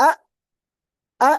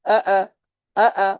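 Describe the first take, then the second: First: Single firm আ, caught and stopped; firmly held hamza. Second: আ let slip in quick repeats, not held firm; unsteady hamza. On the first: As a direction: catch the sound of আ and keep it steady. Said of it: "মানে এটাকে ধরতে হবে". (আ, আওয়াজ ধরে স্থির রেখে) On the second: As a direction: demonstrate a faulty, unfixed আ. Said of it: "যদি এরকম করে উচ্চারণ করি". (আ, স্থির না রেখে ভুলভাবে) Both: Shown as a demonstration.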